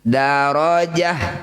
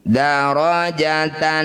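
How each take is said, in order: First: The word ends with a soft h sound. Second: The word ends with a t and nasal ending. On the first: The reading stops at this word. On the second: The reading continues without stopping.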